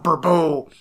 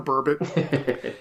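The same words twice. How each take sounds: First: The word is pronounced in a French style. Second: The word is pronounced in a plain English style. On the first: Someone is trying to sound sophisticated. The speaker calls it wrong. "I'm going to get fancy. That's French" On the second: It is just an ordinary fish name. The speaker calls it right. "Nah, idiot. It's just a burbot"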